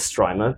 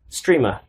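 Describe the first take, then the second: First: The first vowel sounds like the one in 'stripe'. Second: The first vowel sounds like the one in 'stream'. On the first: "I say it as Strimer because STRI stripe" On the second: "it's meant to be for streamers"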